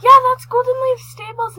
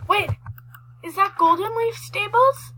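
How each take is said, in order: First: High, loud, thrilled; excited. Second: Rising, surprised question; is that really it?. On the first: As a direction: burst out with delight. Recognizes the stables excitedly. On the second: Spots a place in game. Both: Real, not acted.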